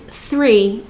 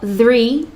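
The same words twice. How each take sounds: First: The th sound at the start is soft. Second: The th sound at the start is buzzy. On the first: The speaker calls it right. "it's three. It's very soft" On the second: The speaker calls it wrong. "It's not three like the"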